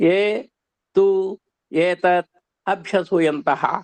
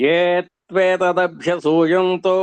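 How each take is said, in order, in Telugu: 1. పదాలను విడివిడి పదాలుగా చెబుతారు. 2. పదాలను కలిపి ఒకటిగా చెబుతారు.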